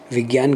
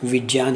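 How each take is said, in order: First: The middle cluster is not said as j plus y. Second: The middle cluster is said as j plus y. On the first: The speaker calls it wrong. "गलत बोलते हैं हम लोग" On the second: The speaker calls it right. "ही इसका सही है"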